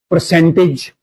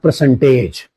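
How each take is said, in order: First: The ending is a short 'ij' sound. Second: The ending is a full 'age' sound. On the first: The speaker calls it right. "it will be pronounced as ij" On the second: The speaker calls it wrong. "not percentage"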